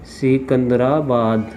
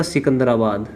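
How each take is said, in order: First: Secunderabad drawn out slowly, syllable by syllable; slow dictation. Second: Said in the usual way. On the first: Real, not acted. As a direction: stretch out Secunderabad as if writing it. Spelling out city while writing. (Secunderabad को धीरे-धीरे खींचकर बोलना)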